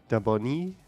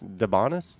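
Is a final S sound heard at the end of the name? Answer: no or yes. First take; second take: no; yes. First: The final S sound is left silent. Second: The final S sound is pronounced.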